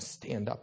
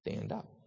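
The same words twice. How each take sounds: First: The word begins with a clear S sound. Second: The S is replaced by a TH sound. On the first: "if you were to say to someone" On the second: "they would use a TH sound"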